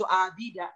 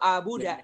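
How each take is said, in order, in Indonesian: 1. Vokal kedua adalah bunyi i. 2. Vokal kedua adalah bunyi u. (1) "nggak boleh baca itu abida" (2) "Nggak boleh baca apa itu abuda"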